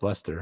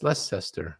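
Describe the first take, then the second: First: The middle syllable is dropped entirely. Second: The middle syllable is pronounced aloud. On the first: The speaker calls it right. "I think it's pronounced Lester" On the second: The speaker calls it wrong. "I was like"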